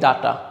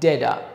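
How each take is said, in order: First: It is said in a Bengali-style accent. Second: It is said in an American accent, t like d. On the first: "এটা আমরা কিন্তু বলি ডাটা" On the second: "আমেরিকানরা ঠয়ের জায়গায় ড দিয়ে বলে"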